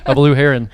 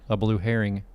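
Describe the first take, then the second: First: "heron" ending in -un, no g; correct pronunciation. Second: "herring" ending in an -ing sound; mistaken pronunciation. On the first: Host finally getting the bird right, "heron" ending in -un. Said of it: "I said it". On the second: Host trying out the bird's name, "herring" with -ing. Corrects herring versus heron. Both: Shown as a demonstration.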